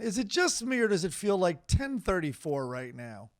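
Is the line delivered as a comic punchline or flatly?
comic punchline. It is read with added emphasis, like a joke. It is meant to land as a joke. "I'm putting the emphasis in there so it sounds like a joke"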